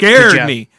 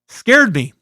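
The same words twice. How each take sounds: First: It is read in a loud, dramatic way. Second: It is read in a plain, flat way.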